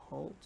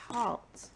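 First: "halt" with a long oh vowel; "halt" rounded to rhyme with "bolt"; halt mispronounced as holt. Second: "halt" with an open ah vowel; halt said properly. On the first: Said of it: "That means stop". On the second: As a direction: say "halt" with the ah of "father". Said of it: "It's supposed to be h". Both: Shown as a demonstration.

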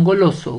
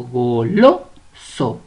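First: Said in the usual way. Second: "Goloso" very slow and low, syllable by syllable, LO punched; stress on LO. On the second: Shown as a demonstration. Teacher showing the penultimate syllable, "Goloso" stressed on LO. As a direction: stretch "Goloso" and hit the LO. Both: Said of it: "Tiene la mayor fuerza de voz".

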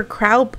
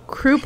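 First: Croup said as KROWP; alternate pronunciation. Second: Croup said as KROOP; alternate pronunciation. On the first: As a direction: say croup with an ow vowel. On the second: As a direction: say croup with an oo vowel. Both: Shown as a demonstration. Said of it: "croup or croup".

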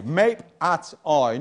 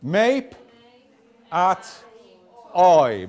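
First: Said in the usual way. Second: Mape, at, oi said apart with long pauses; syllable by syllable. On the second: Shown as a demonstration. Teacher sounding out the first word for the class. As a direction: pause hard between each part. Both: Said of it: "What does it say".

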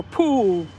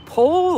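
First: "pool" with a long oo vowel; "pool" stretched on its oo; contrasting pronunciation. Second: "pole" with a long oh vowel; "pole" stretched on its oh; contrasting pronunciation. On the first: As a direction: say "pool" clearly with oo, against pole. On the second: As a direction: say "pole" clearly with oh, against pool. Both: Shown as a demonstration. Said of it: "Are you saying pole or pool?".

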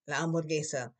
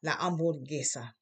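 First: Hamburguesa with no h, said as amburguesa; hamburguesa, h dropped, steady; silent h. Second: Hamburguesa said as amburguesa, no h sound; silent h. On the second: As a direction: drop the h in hamburguesa. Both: Shown as a demonstration. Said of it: "H is always silent".

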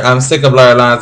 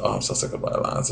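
First: Said in the usual way. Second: Breathy whisper, barely audible. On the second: Real, not acted. Vlogger whispering to viewers she's sick of the song. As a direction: whisper it to yourself, worn out. Echoes the comment title herself.

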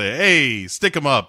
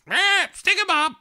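First: Said in the usual way. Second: Very high parrot squawk; high-pitched mock bird voice; parrot imitation. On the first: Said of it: "And then he does the". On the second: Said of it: "And the parrot goes".

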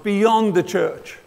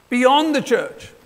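First: Said in the usual way. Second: Beyond the church, slowed and louder, Beyond hit hard; repeated for emphasis. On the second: Shown as a demonstration. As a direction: drive home Beyond with weight.

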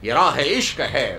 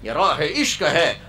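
First: عشق drawn out and leaned on, slow; stress on عشق. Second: راہ lifted and held, عشق left light; stress on راہ. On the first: Preacher repeating the line, first with the weight on عشق. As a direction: put the weight on عشق and let it fall. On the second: Preacher repeating the line, now with the weight on راہ. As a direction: put the weight on راہ this time. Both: Shown as a demonstration.

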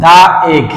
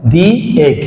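First: "দা এগ" with duh before egg, a little louder; wrong "the egg". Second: "দি এগ" with dee before egg; correct "the egg". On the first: Teacher to students, showing the wrong duh egg. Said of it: "তাহলে কিন্তু ভুল হবে". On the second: Teacher to students, giving the correct dee egg. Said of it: "কি বলতে হবে বলো তো". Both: Shown as a demonstration.

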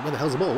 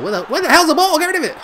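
First: Said in the usual way. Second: High, loud frantic outburst; panicked yell. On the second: Real, not acted. Gamer hunting for a loose ball, panicked yell. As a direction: yell it in rising panic at your defence.

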